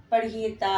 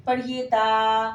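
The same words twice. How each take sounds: First: Said in the usual way. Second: ता stretched long and slow; slow model reading. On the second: Shown as a demonstration. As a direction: drawl the letter name ता for the class. (धीमे खींचकर ता)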